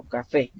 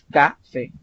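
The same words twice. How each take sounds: First: "café" correctly stressed on FÉ; ca-FÉ, end-stressed; stress on last syllable. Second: "café" wrongly stressed on CA, slowly; CA-fe, slow, front-stressed; stress on first syllable. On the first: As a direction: put the beat on the end of "café". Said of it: "mayor fuerza de voz al final". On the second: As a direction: hit CA and drop the second syllable of "café". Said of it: "No es café". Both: Shown as a demonstration.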